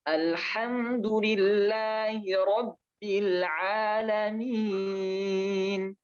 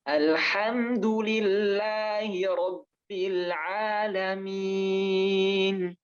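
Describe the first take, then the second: The two takes are said the same way.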